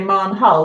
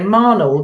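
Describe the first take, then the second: First: The H in the middle is sounded. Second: The H in the middle is silent. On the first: The speaker calls it wrong. "if you didn't know that town in Dorset, you would say Marnhull" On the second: The speaker calls it right. "So it's actually a completely silent H"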